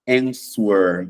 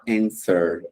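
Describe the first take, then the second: First: The W sound is pronounced in the word. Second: The W sound is silent in the word. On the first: The speaker calls it wrong. "você não vai falar answer" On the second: The speaker calls it right. "Vai falar answer"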